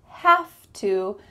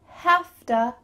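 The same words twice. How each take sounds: First: Both words are said fully and separately. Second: The words blend into a short 'hafta'.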